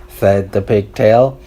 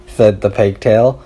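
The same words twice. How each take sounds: The two takes are said the same way.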